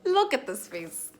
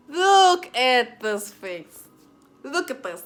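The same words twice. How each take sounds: First: Said in the usual way. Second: High, loud, very slow Look at this face; mock indignant. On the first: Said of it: "pointing to own face, repeated". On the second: Real, not acted. Showing viewers his innocent face, mock indignant. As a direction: stretch out Look at this face in exaggerated outrage. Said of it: "repeated louder, drawn out".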